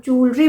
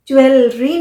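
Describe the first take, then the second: First: ज्वेलरी as "JOOL-ree", two syllables; no w-e in ज्वेलरी, just long oo; correct pronunciation. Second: ज्वेलरी as "joo-WEL-ree"; wrong pronunciation. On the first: Teacher gives the right way, ज्वेलरी as jool-ree. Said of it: "ज्वेलरी बोलते हैं". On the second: Teacher shows what not to say, ज्वेलरी as joo-wel-ree. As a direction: sound a full w-e in ज्वेलरी. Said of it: "ज्वेलरी नहीं बोलते हम". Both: Shown as a demonstration.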